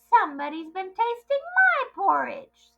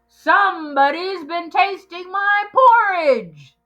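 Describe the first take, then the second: First: It is said in a middle-sized voice. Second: It is said in a great big loud voice.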